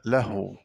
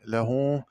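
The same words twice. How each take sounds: First: له as "lah-w", h without a vowel; resting h in له; unvowelled ha. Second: Said in the usual way. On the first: Shown as a demonstration. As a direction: close the first syllable of له on h. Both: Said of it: "قرأ بإسكان الهاء".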